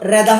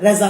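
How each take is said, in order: First: The middle consonant is a d sound. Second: The middle consonant is a z sound. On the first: The speaker calls it wrong. "রেদা হবে না" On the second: The speaker calls it right. "রেজা হবে"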